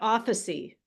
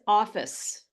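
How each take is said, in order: First: It ends with an added vowel sound. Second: It ends on the final consonant sound. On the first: The speaker calls it wrong. "not officey" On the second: The speaker calls it right. "This is office"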